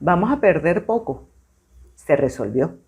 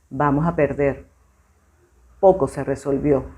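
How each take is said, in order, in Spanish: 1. La pausa va después de 'poco'. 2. La pausa va antes de 'poco'. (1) "voy a hacer la pausa donde está la coma" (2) "voy a hacer la pausa donde está la coma"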